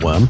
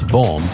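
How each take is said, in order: First: The name begins with a W sound. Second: The name begins with a V sound. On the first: The speaker calls it wrong. "it's not worm" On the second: The speaker calls it right. "it's Vorm"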